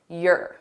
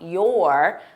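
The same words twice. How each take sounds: First: The word is unstressed and reduced, back in the throat. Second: The word is stressed, with the mouth wide open. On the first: "the sound is unstressed, it's more in my throat" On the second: "which is very stressed, I need to open my mouth wide"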